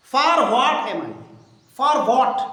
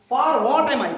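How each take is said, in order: First: Slowly, each word spaced out; teacher spelling out the question slowly for the class; slow model reading. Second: Said in the usual way. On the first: Shown as a demonstration. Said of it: "teacher models the question slowly". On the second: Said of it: "plain repeat of the question".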